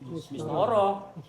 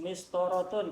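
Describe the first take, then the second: First: The word ends with a soft h sound. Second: The word ends with the full -tun ending.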